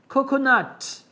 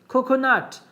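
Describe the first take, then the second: No difference in how they are said.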